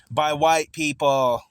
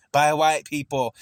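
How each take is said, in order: First: By white people dragged out slowly, weight on white; slow stressed emphasis. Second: By white people again slowly, white stressed and falling; slow repeated emphasis. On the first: Telling a debater, each word slow, white leaned on. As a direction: lean hard and slow on white. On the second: Repeating it at the debater, slow and falling on white. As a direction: drive it home slowly on white. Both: Real, not acted.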